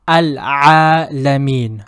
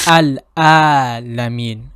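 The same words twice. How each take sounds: First: Vibrate Al-Alamin from mid-throat; Ain from the throat. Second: Al-Alamin with a plain glottal Hamza instead of Ain; wrong letter. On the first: Teacher demonstrating correct Ain in Al-Alamin. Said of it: "having that vibration in the middle of your throat". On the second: Teacher showing the mistaken Al-Alamin. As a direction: say Al-Alamin the wrong way, no throat vibration. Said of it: "a completely different letter". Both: Shown as a demonstration.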